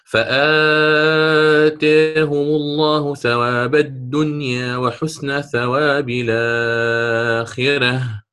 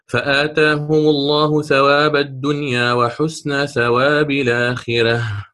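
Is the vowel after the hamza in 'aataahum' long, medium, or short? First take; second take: medium; short. First: The vowel after the hamza is held medium length. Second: The vowel after the hamza is held short. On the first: "الآن التوسط على التقليل، فأوسط البدل" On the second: "قرأت بقصر البدل مع فتح ذات الياء"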